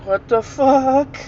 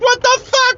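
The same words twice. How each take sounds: First: Slow, high, drawn-out disbelief; bewildered boy. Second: Very high mock panic; freaking out. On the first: Retold or imitated. Boy pauses the TV on hearing a voice, slow high bewilderment. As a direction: imitate a baffled boy, stretching the last word. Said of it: "He's like". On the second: Boy panics at the voice in the closet, high-pitched freak-out. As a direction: imitate a boy shrieking in alarm. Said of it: "He started freaking out".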